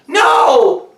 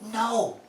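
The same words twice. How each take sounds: First: It is yelled loudly. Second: It is said quietly.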